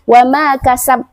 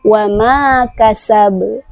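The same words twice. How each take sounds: First: The final b stops flat with no bounce. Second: The final b is released with a bounce. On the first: The speaker calls it wrong. "tidak boleh kita baca wa ma kasab" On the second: The speaker calls it right. "Jadi kita harus memberikan qalqalahnya"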